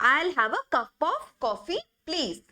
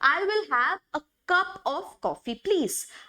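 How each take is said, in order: First: 'I will' is contracted to one syllable. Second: 'I will' is said as two full words. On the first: "आइल बोलते हैं, this sounds more colloquial" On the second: "यहाँ पे आई विल बोलते हैं"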